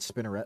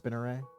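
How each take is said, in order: First: The name ends with a hard T sound. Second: The name ends without a T sound. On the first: "I thought it was a hard T. Okay, that's how I've been pronouncing it" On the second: "but like maybe it's Spinneret"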